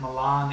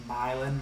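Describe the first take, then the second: First: Milan said "muh-LAHN"; Italian city pronunciation. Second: Milan said "MY-lin"; West Virginia pronunciation. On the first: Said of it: "it's spelled like Milan, Italy". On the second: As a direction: say Milan with a long "eye", stress up front. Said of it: "it's pronounced like Milan, like you're from West Virginia". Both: Shown as a demonstration.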